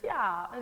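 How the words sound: The ch and v sounds are softened. "the C H gets softened, the V gets softened"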